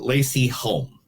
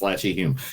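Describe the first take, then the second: First: The name is said like Lacey Holm. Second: The name is said like Latchy Hume. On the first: The speaker calls it wrong. "I'm sorry for mispronouncing that" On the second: The speaker calls it right. "It's Latchy Hume"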